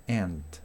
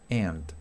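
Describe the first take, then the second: No difference in how they are said.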